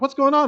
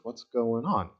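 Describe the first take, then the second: First: It is said in a startled, alarmed way. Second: It is said calmly and gently.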